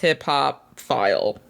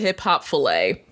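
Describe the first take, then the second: First: The ending sounds like 'file'. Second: The ending sounds like 'fillet'. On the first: The speaker calls it right. "I had mispronounced hip hop file" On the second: The speaker calls it wrong. "I used to call it hip hop fillet"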